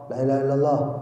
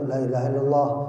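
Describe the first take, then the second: Both takes have the same delivery.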